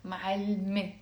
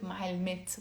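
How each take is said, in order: First: معلمة ending on an open e sound; silent final T. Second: معلمات with the silent T sounded at the end; final T pronounced. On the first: Teacher showing learners how it is pronounced, معلمة with silent T. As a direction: drop the T and end معلمة on e. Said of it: "We pronounce it". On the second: Teacher showing how not to say it, معلمات with final T sounded. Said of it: "but we don't pronounce it". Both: Shown as a demonstration.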